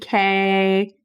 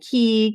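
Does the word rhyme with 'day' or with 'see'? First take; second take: day; see. First: The vowel sounds like 'ay' in day. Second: The vowel sounds like 'ee' in see. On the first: "it's kind of like a potato potato situation" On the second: "we're pronouncing it Key"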